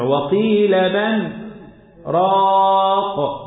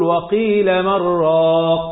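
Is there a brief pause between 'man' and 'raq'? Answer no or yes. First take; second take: yes; no. First: A brief pause separates 'man' from 'raq'. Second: The words run together without a pause. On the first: "فقالوا نسكت السكتة حتى يفهم المستمع" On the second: "واذا ما مددتش المنفصل تقول وقيل من راق، ما تسكتش السكت اللطيف"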